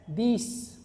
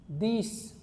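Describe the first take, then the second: The two takes are said the same way.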